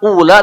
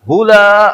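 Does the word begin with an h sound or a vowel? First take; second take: vowel; h sound. First: The word begins directly with a vowel. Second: The word begins with an h sound. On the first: The speaker calls it wrong. "bukan ula" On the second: The speaker calls it right. "tapi hula"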